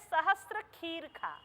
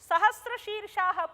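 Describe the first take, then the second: First: The second word begins with a 'kh' sound. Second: The second word begins with a 'sh' sound. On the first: The speaker calls it wrong. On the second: The speaker calls it right.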